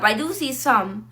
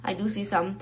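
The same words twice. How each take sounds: First: Said in the usual way. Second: Much softer, lower repeat of "I do see some"; muttered afterthought, nearly swallowed; quiet aside. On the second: Real, not acted. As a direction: drop the voice to say "I do see some" under your breath.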